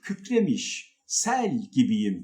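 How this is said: There is a pause right after kükremiş. The speaker calls it wrong.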